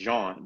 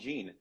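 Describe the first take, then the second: First: The name has a French pronunciation. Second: The name has an American English pronunciation. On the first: "the way that you pronounce it in France" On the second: "the way that Americans pronounce it"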